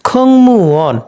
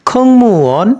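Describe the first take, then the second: Both takes have the same delivery.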